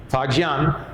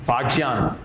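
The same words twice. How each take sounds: The two takes are said the same way.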